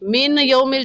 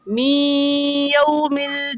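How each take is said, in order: First: The n is pronounced clearly before y. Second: The n merges nasally into the y. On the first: The speaker calls it wrong. "कहना गलत है" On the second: The speaker calls it right. "सही है"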